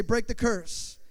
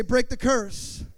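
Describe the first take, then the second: First: Said in the usual way. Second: Louder and slow, each word hammered; rally them to shout it back, drawn out; preached call. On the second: Shown as a demonstration. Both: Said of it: "Somebody say".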